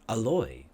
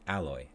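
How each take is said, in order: First: The stress is on the second syllable. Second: The stress is on the first syllable. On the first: It sounds more like a name. "they put a stress on the oi sound" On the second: It is the word for a kind of metal. "So we pr- usually pronounce this word alloy"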